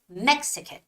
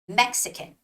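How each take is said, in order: First: The stress is on the first syllable. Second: The stress is on the first syllable.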